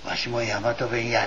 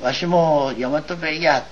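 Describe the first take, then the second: First: Quiet, sheepish little confession; shy admission. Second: Slow, hesitant, embarrassed admission; shyly. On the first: Second Shinbashiya head admitting it to the meeting, sheepishly. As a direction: own up to it softly, a bit embarrassed. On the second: Second Shinbashiya head owning up before the council, slow and shy. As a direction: say it as if ashamed to confess it. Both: Retold or imitated. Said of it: "恥ずかしそうに言わないで".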